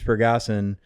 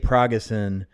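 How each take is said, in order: First: The first syllable sounds like 'per'. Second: The first syllable sounds like 'pra'. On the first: This is the name as its owner says it. The speaker calls it right. "so your name's Pergason" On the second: This is how many other people say it. The speaker calls it wrong. "A lot of people that mispronounce your name"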